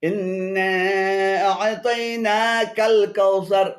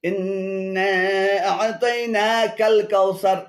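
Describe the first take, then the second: Both takes have the same delivery.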